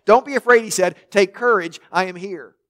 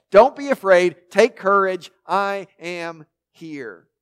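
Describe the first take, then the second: First: Said in the usual way. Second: Each phrase leaned on, last slowed right down; savoured reassurance. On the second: Shown as a demonstration. Preacher savouring Jesus' words to the frightened disciples, slow emphatic reassurance. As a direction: let Don't and Take land with weight, then draw out I am here slowly. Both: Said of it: "I love that".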